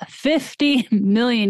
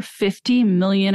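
First: "Fifty million" slowed down for emphasis; emphatic repeat. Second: Said in the usual way. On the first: Real, not acted. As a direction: repeat "Fifty million" slowly, letting the figure sink in. Repeats the figure in disbelief.

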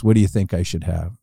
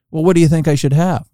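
First: Said in the usual way. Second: Lightly snooty retort, pitched higher; a little snooty. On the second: Retold or imitated. Golfer asks his caddy back, mildly snooty. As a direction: imitate a mildly huffy golfer, pitch lifted. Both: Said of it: "And he gets a little snooty".

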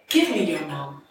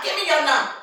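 First: Said in the usual way. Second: Put-on high-pitched drunken demand; drunk woman. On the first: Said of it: "I'm not talking like she's talking". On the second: Drunk woman asking little baby's number, high drunken voice. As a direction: imitate her drunk talk, pitched well up. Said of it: "Drunk still. I'm not talking like she's talking".

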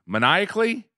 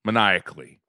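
First: Asks it as a question, pitch rising; questioning rise. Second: Said in the usual way. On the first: Shown as a demonstration. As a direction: tries the word Maniacally? with a rising tone. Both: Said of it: "Laughing maniac-, maniacally".

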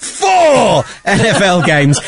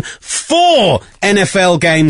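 First: "four" yelled long and high, then a laugh; shouted stress on four. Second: Slow, drawn-out "four", pitched up; stress on four. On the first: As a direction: bellow a stretched "four" in mock hype. Repeats number after "How many?. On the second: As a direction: stretch "four" like a proud sales pitch. Plugging tour, prompted to repeat number. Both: Real, not acted.

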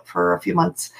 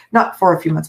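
First: Said in the usual way. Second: "not" hit hard, correcting herself; stress on not. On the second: Shown as a demonstration. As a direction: punch "not", then falling.

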